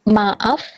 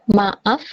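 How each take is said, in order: No difference in how they are said.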